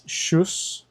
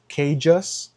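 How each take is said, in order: First: The name starts with a sh sound. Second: The name starts with a k sound. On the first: The speaker calls it right. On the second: The speaker calls it wrong.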